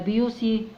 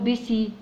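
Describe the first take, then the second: First: It starts with byoo and has an s sound. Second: The middle consonant is an s sound. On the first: "ولا بيوسي" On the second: "مش هقول بيسي"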